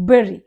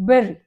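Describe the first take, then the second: The two takes are said the same way.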